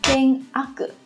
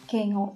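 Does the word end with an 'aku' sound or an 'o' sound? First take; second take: aku; o. First: The second part is read as 'aku'. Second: The second part is read as 'o'. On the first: The speaker calls it wrong. "Thường thì mọi người có thể nhầm và đọc là keng ak" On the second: The speaker calls it right. "mà các bạn sẽ đọc là keng o"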